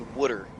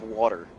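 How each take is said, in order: First: It is said in a Philadelphia accent. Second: It is said in a standard accent.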